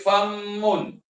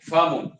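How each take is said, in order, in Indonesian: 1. Bunyi m ditahan lama, dobel. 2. Bunyi m pendek, tidak dobel. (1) "Sebab ada orang dia baca famun" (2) "Mim ni tuan-tuan kita tidak baca dengan sabdu"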